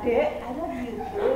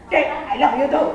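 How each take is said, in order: First: It is said in a soft, normal voice. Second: It is said loudly, almost shouted.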